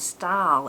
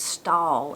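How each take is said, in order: First: The word is said with an 'eye' vowel. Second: The word is said with an 'aw' vowel. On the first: The speaker calls it wrong. "it's not style" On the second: The speaker calls it right. "it's stall"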